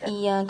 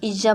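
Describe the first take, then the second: First: The doubled consonant sounds like a soft y. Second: The doubled consonant sounds like a hard j. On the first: The speaker calls it right. "सही।" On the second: The speaker calls it wrong. "Stress देंगे तो इज इज्जा बन जाता है"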